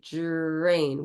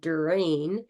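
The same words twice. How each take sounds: First: It starts with a J-like affricate sound. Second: It starts with a plain, crisp D sound. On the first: "we say drain. Once again, we make it into an affricate" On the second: "Instead of saying"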